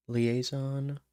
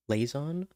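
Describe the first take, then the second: First: Said in the usual way. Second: Liaison squeezed to two syllables, lay-zon; three-syllable liaison. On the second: Shown as a demonstration. Trying liaison as lay-zon to fit the song, rising. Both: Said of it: "unless you say it like".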